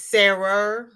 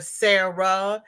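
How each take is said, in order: First: Sarah said as "Sarer" with an R on the end; Sarah with an added R. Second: Said in the usual way. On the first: Shown as a demonstration. A viewer explaining local speech, saying Sarah with an R at the end. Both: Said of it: "they put an R on it".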